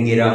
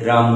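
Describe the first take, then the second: First: A vowel breaks up the opening consonant cluster. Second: The first two consonants form one cluster.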